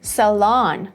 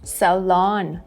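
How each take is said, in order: The two takes are said the same way.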